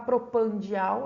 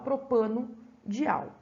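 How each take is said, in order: First: It is said with no vowel before 'dial'. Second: It is said with an 'o' before 'dial'. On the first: The speaker calls it wrong. "Para não ficar propandial" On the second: The speaker calls it right. "a gente fala propano-dial"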